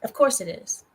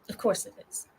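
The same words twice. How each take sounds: First: Said in the usual way. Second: Softer, unvoiced of course it is; whispered aside. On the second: Real, not acted. Streamer muttering resigned aside about the private link.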